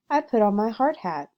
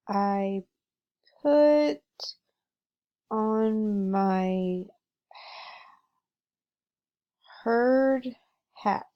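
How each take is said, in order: First: It is read smoothly, with natural expression. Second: It is read choppily, without expression. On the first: The speaker calls it right. "read the same passage with a fluent tone" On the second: The speaker calls it wrong. "I didn't chunk my words"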